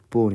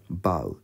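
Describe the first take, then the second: First: The vowel sounds like 'oh' in 'go'. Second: The vowel sounds like 'ow' in 'cow'. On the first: It means the weapon for shooting arrows. "ボウになると弓です" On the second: It means to bend forward in greeting. "バウと読むとお辞儀をするです"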